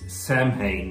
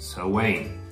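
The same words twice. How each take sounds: First: It is said as spelled, like 'sam-hane'. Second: It is said like 'sow-in', with no h. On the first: The speaker calls it wrong. "reads Samhain" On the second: The speaker calls it right. "but is pronounced Samhain"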